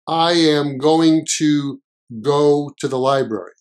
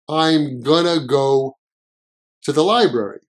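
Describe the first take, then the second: First: The words are said in full as 'I am going to'. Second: The words are reduced and blended as 'I'm gonna'.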